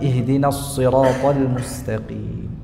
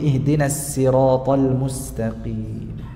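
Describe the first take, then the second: First: The s in sirat is emphatic. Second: The s in sirat is plain. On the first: "dibaca dengan shad murni" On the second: "dengan sin murni"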